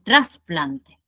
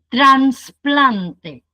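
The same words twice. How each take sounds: First: No n sound comes before the s. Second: An extra n sound comes before the s. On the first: The speaker calls it right. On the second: The speaker calls it wrong. "La N la metemos ahí"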